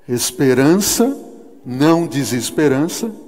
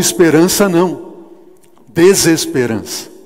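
First: The pause comes right after the word 'esperança'. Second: The pause comes right after the word 'não'. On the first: Hope is wanted, not despair. The speaker calls it right. "você pode escolher onde colocar a vírgula" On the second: Hope is rejected in favor of despair. The speaker calls it wrong.

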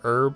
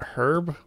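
First: The word starts with no H sound. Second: The word starts with an audible H sound. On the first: "like a silent H" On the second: "like with an H sound"

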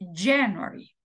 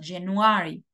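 First: The stress falls on the first syllable. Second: The stress falls on a later syllable. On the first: The speaker calls it right. "decimos January" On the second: The speaker calls it wrong. "en inglés no decimos January"

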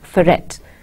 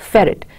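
First: The stress is on the second syllable. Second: The stress is on the first syllable. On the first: The speaker calls it wrong. "It is not pronounced as ferret" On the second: The speaker calls it right. "You say ferret"

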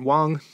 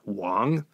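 First: The syllable is said with a high level tone. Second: The syllable is said with a non-level tone. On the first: This is a less common surname. "the first tone Wang" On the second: This is the most common surname. "the most popular surname in all of China"

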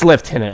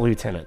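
First: The word has a British pronunciation. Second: The word has an American pronunciation. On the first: The speaker calls it right. "I was in the British Army many, many years ago, and it's Lieutenant" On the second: The speaker calls it wrong. "it's not Lieutenant"

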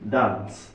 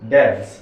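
First: The vowel sounds like 'a'. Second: The vowel sounds like 'e'. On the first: "যদি আমরা আকার দিয়ে পড়ি তাহলে কি হয় দেখুন" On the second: "আমরা একার নিলাম"

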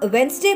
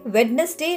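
First: The word is said as two syllables, no first d. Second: The word is said as three syllables with d. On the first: The speaker calls it right. "आप वेंसडे बोलेंगे" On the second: The speaker calls it wrong. "वेडनेसडे नहीं बोलेंगे।"

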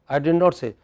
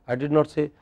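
No difference in how they are said.

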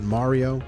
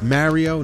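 First: The name is said a different, non-local way. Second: The name is said the New Jersey way. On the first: The speaker calls it wrong. "not Mario" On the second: The speaker calls it right. "it's Mario, ... I'm from New Jersey"

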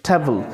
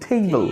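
First: The first vowel is a plain 'e'. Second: The first vowel is an 'ay' glide. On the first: The speaker calls it wrong. "Not টেবল" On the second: The speaker calls it right. "তখন এটার প্রোনাউন্সিয়েশনটা আসে কি টেবল"

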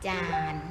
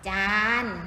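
First: The syllable is said on a low tone. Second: The syllable is said on a level mid tone.

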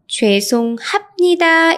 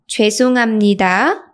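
First: The consonant before 니 is a stop p. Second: The consonant before 니 is a nasal m. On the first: "죄송합니다 is pronounced" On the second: "is pronounced 죄송합니다"

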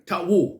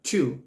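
First: The word is said with a w sound. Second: The word is said with no w sound. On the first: The speaker calls it wrong. "เราไม่อ่านว่าทะวู" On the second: The speaker calls it right. "เราอ่านตามตัวเสียง"

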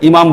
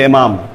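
First: The word begins with an 'i' vowel. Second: The word begins with an 'e' vowel. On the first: "এরা ইমাম বলে না" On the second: "বলে এমাম"

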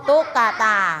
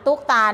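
First: It is said as three syllables, tuk-ka-ta. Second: It is said as two syllables, tuk-ta. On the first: The speaker calls it right. "กอไก่เป็นตัวสะกดแล้วก็เป็นพยัญชนะต้นของตัวต่อไปด้วย" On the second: The speaker calls it wrong. "ไม่ใช่อ่านตุกตานะ"

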